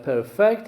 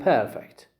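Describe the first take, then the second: First: Perfect as a verb, per-FECT; second-syllable stress. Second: Perfect as an adjective, PER-fect; first-syllable stress. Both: Shown as a demonstration. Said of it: "the stress is on the first syllable".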